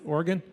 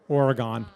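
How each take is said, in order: First: It is pronounced the way local residents say it. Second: It is pronounced the way New Yorkers say it. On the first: The speaker calls it right. "Did I say it right" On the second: The speaker calls it wrong. "You know how New Yorkers say Oregon?"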